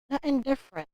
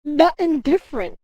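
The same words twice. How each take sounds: First: Softer, dropped "Nothing different" to himself; quiet repeat. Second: Loud, stressed "Nothing" up high; emphatic. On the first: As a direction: let "Nothing different" fall away under the breath. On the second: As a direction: hammer "Nothing different" as a verdict. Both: Shown as a demonstration.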